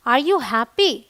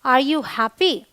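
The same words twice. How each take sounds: The two takes are said the same way.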